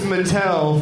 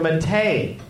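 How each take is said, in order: First: The name ends with an 'l' sound. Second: The name ends with an 'ay' sound. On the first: The speaker calls it wrong. "I've been pronouncing this Mattel for months" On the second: The speaker calls it right. "but it's at C underscore Mattei, M-A-T-T-E-I"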